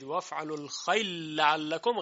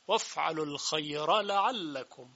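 First: The r merges into the following l sound. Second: The r is pronounced clearly before the l. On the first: The speaker calls it wrong. "اگه بگید وفعل الخیل لعلکم غلطه" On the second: The speaker calls it right. "این اظهار میشه و ادغام نمیشه"

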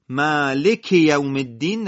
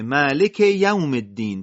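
First: The first word's final sound runs into the second. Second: The second word starts with a clearly marked sound. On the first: The speaker calls it wrong. "مالک یوم الدین نشه" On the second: The speaker calls it right. "تأکید روی یا یوم بشه"

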